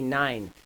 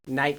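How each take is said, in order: First: The word ends with an n sound. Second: The word ends with a t sound.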